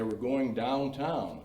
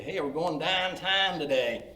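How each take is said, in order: First: Said in the usual way. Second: Higher, slow Pittsburgh "Hey, we're going downtown today"; Pittsburgh accent on "downtown". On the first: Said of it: "up here we say". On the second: Shown as a demonstration. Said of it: "Pittsburgh pronunciation of words".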